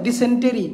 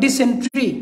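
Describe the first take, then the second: First: ডিসেন্টেরি with the full syllable টে-রি sounded out, as it is spelt; spelling-based pronunciation. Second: ডিসেন্ট্রি with the ending run together as ট্রি; ডিসেন্ট্রি, no vowel between ট and রি; correct pronunciation. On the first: Teacher showing students the spelt-out form, ডিসেন্টেরি with টেরি said in full. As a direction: say ডিসেন্টেরি letter by letter, টেরি at the end. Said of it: "টেরি হওয়ার কথা". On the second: Teacher giving students the proper sound, ডিসেন্ট্রি said with a clipped ট্রি ending. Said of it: "উচ্চারণটা হবে". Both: Shown as a demonstration.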